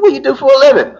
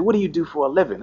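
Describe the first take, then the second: First: Impatient cop repeating himself; insistent repeat. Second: Said in the usual way. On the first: Retold or imitated. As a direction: push the question harder, not buying the lie. Cop repeats, not buying it.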